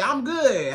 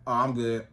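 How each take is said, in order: First: Enthusiastic reply. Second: Dry monotone reply. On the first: Shown as a demonstration. Woman answers the man's greeting with enthusiasm. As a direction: sound glad to be asked. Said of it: "give it a little more enthusiasm". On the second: Retold or imitated. Date asks how she's doing, she answers bored and dry. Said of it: "you real monotone".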